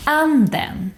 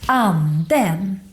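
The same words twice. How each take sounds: First: ANDEN high on "An", falling to "-den"; single-peak "Anden", stressed first syllable then down; acute accent. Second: ANDEN up, down, up again on "-den"; double-peak "Anden", second syllable lifting; grave accent. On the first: Teacher demonstrating acute accent, "Anden" high then falling. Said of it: "stress in the first syllable". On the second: Teacher demonstrating grave accent, "Anden" in two peaks. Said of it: "goes up in the beginning". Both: Shown as a demonstration.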